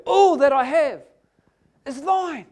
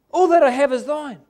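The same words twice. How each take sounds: First: ALL hit loud and high, then "is thine" falls; stress on ALL. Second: "All" said loud and high again, the rest falling; stress on ALL. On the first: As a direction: punch the word all, hold it bold. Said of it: "bold, emphasize the word". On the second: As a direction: lean hard on all a second time. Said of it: "emphasize the word". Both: Shown as a demonstration.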